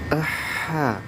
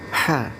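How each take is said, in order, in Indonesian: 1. Ada bunyi 'a' pendek sebelum h. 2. Bunyi h dimulai tiba-tiba tanpa vokal sebelumnya. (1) "Jangan kemudian kita jadi aha" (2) "langsung diucapkan ha"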